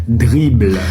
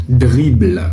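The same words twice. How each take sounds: No difference in how they are said.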